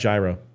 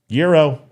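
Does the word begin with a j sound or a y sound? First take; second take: j sound; y sound. First: The word begins with a j sound. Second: The word begins with a y sound. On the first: The speaker calls it wrong. "It's not gyro" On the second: The speaker calls it right. "It's Euro"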